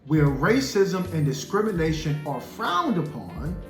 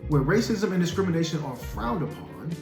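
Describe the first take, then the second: First: The phrase is read at a slow pace. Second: The phrase is read at a faster pace. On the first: "I kind of read that slowly" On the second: "Let me read it a little bit faster"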